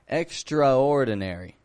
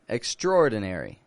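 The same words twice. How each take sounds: First: The letter A after 'extr' is clearly pronounced. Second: The letter A after 'extr' is dropped entirely. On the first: "people will often pronounce the A in there" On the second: "I just say extraor"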